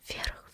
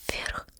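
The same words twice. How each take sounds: The two takes are said the same way.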